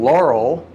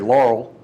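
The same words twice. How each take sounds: First: The name is said slowly with two syllables. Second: The name is said quickly as one syllable.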